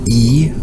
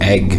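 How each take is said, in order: First: It is a bare vowel with no consonants. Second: It sounds like egg, ending in a g. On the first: This is how some other regions say it. "it can be e in other parts of the country" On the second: This is how one speaker's home dialect says it. "for her is um, egg, is how it's pronounced"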